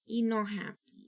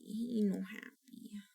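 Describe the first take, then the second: First: Said in the usual way. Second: Put-on slow, soft whispered baby talk. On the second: Repeating her baby-talk complaint to viewers, a slow whisper. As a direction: whisper it like a sulky secret.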